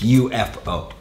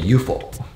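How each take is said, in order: First: It is said as three letters, U-F-O. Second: It is said as one word, yoo-foh. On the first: The speaker calls it right. "It's UFO" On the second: The speaker calls it wrong. "you don't say UFO"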